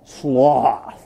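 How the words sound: It is said with a drawn-out Western drawl.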